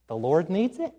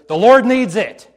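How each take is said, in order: First: "The Lord needs it" rising to a question on "it"; unsure, questioning. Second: Loud, high, ringing declaration; bold confidence. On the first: Unsure child answering the teacher, "The Lord needs it" ending in a question. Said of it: "it's the child with the question mark at the end". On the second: Disciple answering the owner back, bold confident declaration. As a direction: declare it with total certainty. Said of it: "With bold confidence". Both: Acted.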